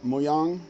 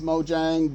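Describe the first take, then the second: First: It is said with a non-English, original-style pronunciation. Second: It is said with an anglicized English pronunciation. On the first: The speaker calls it right. "It's something closer to Mojang" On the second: The speaker calls it wrong. "that's the American version or the anglicized version"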